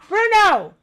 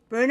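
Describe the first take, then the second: First: The name is called in a strong, forceful voice. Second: The name is called softly, without force. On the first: The speaker calls it right. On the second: The speaker calls it wrong.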